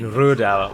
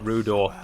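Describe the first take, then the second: First: The second vowel is a gliding diphthong. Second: The second vowel is a single plain vowel. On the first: The speaker calls it right. "this feature as well we see in Rudauer" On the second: The speaker calls it wrong. "whereas the gentleman called it Rudor"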